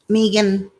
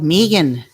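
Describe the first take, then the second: First: The name is said in an ordinary accent. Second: The name is said in an Irish accent. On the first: "am I saying it right?" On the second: "should I say it with an Irish accent though?"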